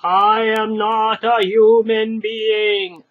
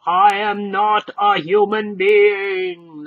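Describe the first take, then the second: First: Slow, loud, harsh monotone; slow harsh golem repeat; repeated golem declaration. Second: Slow, loud harsh golem declaration; slow, loud monotonous golem insistence; loudly. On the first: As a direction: insist again, flatly and slow. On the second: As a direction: boom it out slowly. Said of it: "the stranger said loudly". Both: Acted.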